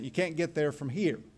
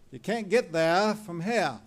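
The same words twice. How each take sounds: First: It is said in the speaker's own accent. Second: It is said in a New England accent.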